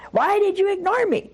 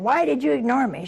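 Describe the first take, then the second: First: Much higher, baffled repeat of the question; incredulous echo. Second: Hurt friend's mildly indignant demand; mock accusation. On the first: Retold or imitated. Woman repeats her friend's accusation, baffled and much higher. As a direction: throw it back in total disbelief. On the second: Best friend on the phone demands why she was snubbed, mildly indignant. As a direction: accuse her like a wounded friend.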